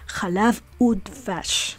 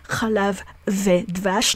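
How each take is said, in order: First: The word for 'and' is pronounced 'oo'. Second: The word for 'and' is pronounced 've'. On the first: The speaker calls it right. "we pronounce the conjunctive vav as u" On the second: The speaker calls it wrong.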